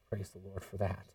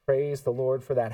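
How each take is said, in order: First: Much softer and lower, almost to himself; hushed praise. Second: Said in the usual way. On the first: Real, not acted. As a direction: breathe it out in quiet awe. Awed aside, then repeated aloud.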